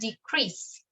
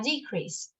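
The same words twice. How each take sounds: First: The stress is on the second syllable. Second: The stress is on the first syllable. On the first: It is the verb, to reduce something. "El acento va, o la fuerza, al final" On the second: It is the noun, a reduction in something. "el acento va acá"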